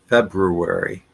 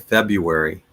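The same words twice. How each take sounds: First: Both R sounds are clearly pronounced. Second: The first R sound is left out. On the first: The speaker calls it right. "both R's are pronounced February" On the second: The speaker calls it wrong. "I will not pronounce the first R. I'll just say February"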